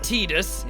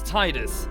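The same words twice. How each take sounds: First: The first syllable sounds like 'tee'. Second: The first syllable sounds like 'tie'. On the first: The speaker calls it wrong. "It's not Tidus" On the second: The speaker calls it right. "It's got T I, Ty"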